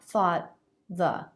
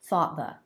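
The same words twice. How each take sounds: First: The voice stops and sits on the break. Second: The voice catches briefly and keeps moving forward. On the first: The speaker calls it wrong. "It's not" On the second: The speaker calls it right.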